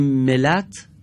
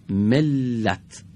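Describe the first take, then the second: First: ملت with a single short ل, no doubling; wrong reading. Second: ملت said mel-lat, the ل clearly doubled and held; correct doubled reading. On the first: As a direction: say ملت as me-lat, the ل not held. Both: Shown as a demonstration. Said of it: "یعنی لام بدون تشدید خونده شده".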